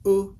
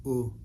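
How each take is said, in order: First: "ooh" pitched high and louder. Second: Said in the usual way. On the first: Shown as a demonstration. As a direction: lift "ooh" to a short high tone. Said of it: "that's the high tone". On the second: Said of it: "a regular U might sound like".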